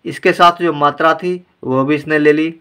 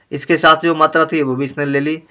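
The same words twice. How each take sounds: The two takes are said the same way.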